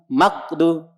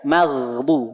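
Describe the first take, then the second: First: The gh sound is cut off abruptly. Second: The gh sound flows on continuously. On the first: The speaker calls it wrong. "bukan ghairil maqdu, maqdu, tapi alirkan" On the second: The speaker calls it right. "Ghain sukunnya alirkan"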